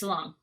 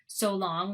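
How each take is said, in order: First: The word 'so' is reduced toward a schwa. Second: The word 'so' has a full vowel.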